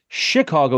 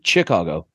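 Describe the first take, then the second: First: Chicago is said with its French-derived pronunciation. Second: Chicago is said with an English-style pronunciation. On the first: "That's why we say Chicago" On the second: "If it was in English, it would be Chicago"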